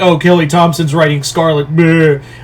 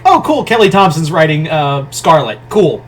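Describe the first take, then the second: First: It sounds dismissive and unimpressed. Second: It sounds mildly pleased and interested.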